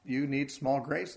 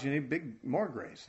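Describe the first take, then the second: First: Slow, small drawn out and lifted; small stretched slow, set against big; stress on small. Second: Big and more grace pressed but softer; big stressed in answer to small. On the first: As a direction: lean on small. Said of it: "In small trials". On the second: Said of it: "In big trials". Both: Shown as a demonstration.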